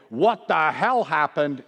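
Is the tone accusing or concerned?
accusing. It sounds angry and blaming. The speaker is asserting power and assigning blame. The speaker calls it wrong. "very different intonation"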